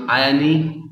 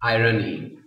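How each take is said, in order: First: "irony" as eye-un-ee, r dropped; "irony" with a silent r; mispronounced irony. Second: "irony" as eye-ruh-nee; three clear syllables in "irony", r sounded; correct pronunciation of irony. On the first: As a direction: say "irony" like British iron plus ee. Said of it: "that would be wrong". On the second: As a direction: say "irony" with r opening the middle syllable. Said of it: "it is always pronounced". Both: Shown as a demonstration.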